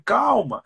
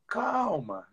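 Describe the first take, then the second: First: Lifted calm. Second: A soft, soothing calma; soft calm. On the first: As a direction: reassure with a bright lift. (calma dita mais aguda e firme) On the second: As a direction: settle the leader down gently. (calma dita suavemente) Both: Shown as a demonstration.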